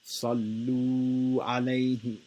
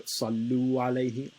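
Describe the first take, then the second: First: The vowel in 'lu' is held for two beats. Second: The vowel in 'lu' is held for one beat. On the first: The speaker calls it right. "is the right way to say it" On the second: The speaker calls it wrong. "would be making it one haraka, which is wrong"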